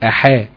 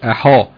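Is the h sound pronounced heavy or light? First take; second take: light; heavy. First: The h sound is light, with a thin clear quality. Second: The h sound is heavy, with a thick backed quality. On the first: The speaker calls it right. "تقول أحا" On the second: The speaker calls it wrong. "ما تقولش أحا"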